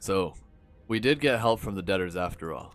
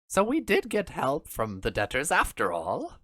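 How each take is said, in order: First: It is said in the speaker's normal voice. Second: It is said in a put-on character voice. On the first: "I forgot to do the Doofenshmirtz voice" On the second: "That just sounds like my Oswald voice"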